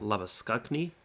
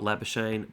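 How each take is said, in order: First: The name has a traditional Afrikaans pronunciation. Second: The name has a simplified, anglicized pronunciation. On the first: The speaker calls it right. "in the traditional Afrikaans pronunciation" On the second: The speaker calls it wrong. "not Labuschagne"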